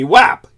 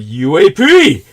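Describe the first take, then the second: First: The acronym is pronounced as a single word. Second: The acronym is spelled out letter by letter. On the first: Military insiders say it this way. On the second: The general public says it this way.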